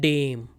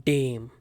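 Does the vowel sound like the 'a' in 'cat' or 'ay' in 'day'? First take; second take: day vowel; day vowel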